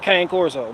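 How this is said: It is said the American street way.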